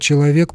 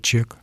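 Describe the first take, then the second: First: The word is said in full, three syllables. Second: The word is shortened to a single syllable. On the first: "мы слово «человек» произносим как" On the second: "просто «чек»"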